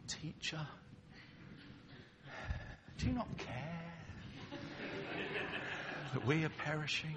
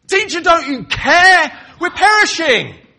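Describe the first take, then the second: First: Gentle, restrained asking, a touch higher; a mild, respectful request to the teacher; soft polite plea. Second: Much higher, much louder cry over a storm; frantic accusing shout; desperate shout. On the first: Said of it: "I don't think you speak saying". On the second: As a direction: yell it over crashing waves. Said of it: "Something more like that to be heard above the crash of the waves". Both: Shown as a demonstration.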